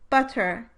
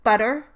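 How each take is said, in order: First: The middle consonant is a full, held stop. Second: The middle consonant is a brief tongue tap. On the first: "with and without the alveolar flap" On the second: "with and without the alveolar flap"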